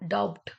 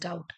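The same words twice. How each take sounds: First: A B sound is pronounced before the T. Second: No B sound is pronounced before the T. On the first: The speaker calls it wrong. "We don't call it doubt" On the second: The speaker calls it right. "It is doubt"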